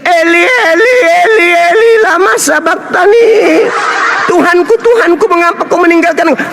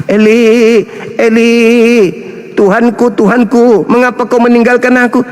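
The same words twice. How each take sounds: First: Mock anguished cry. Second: Said in the usual way. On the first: Jesus crying out on the cross, mocked and hammed-up. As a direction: ham up a desperate cry to God. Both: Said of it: "dia teriak".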